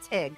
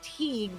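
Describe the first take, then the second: First: The name is said short with a clipped vowel. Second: The name is said fully with a long vowel. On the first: This is how the locals say it. "but they call it Tig" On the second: This is the careful spelled-out pronunciation. "if you enunciate it's Teague"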